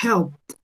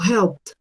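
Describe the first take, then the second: First: The ending is said as a short 't' sound. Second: The ending is said as a short 't' sound.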